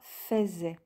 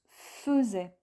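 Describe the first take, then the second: First: The first vowel is a clear 'eh' sound. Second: The first vowel is a weak 'uh' sound. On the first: The speaker calls it wrong. "et non pas faisait" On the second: The speaker calls it right. "mais qui se prononce faisait"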